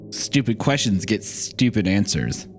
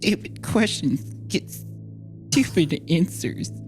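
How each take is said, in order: First: The voice sounds steady, in a valley-girl manner. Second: The voice sounds shaky, with a tremor.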